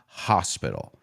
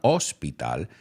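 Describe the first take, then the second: First: The word starts with a clearly breathed H sound. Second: The word starts without an audible H sound. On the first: The speaker calls it right. "Primero la H se pronuncia ha" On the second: The speaker calls it wrong. "It's not hospital"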